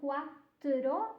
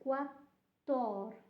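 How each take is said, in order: First: The word ends with the sounds 'tro'. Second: The word ends with the sounds 'tor'. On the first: The speaker calls it wrong. "it's not quattro" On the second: The speaker calls it right. "it's quattor"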